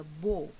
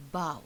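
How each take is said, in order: First: "bow" with a long o; bow as neckwear. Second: "bow" with an ow sound; bow as bending. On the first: Teacher naming the bow round a neck, "bow" rhyming with go. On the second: Teacher naming bowing before kings, "bow" rhyming with cow. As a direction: pronounce "bow" to rhyme with now. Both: Shown as a demonstration. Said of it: "pronunciation is slightly different".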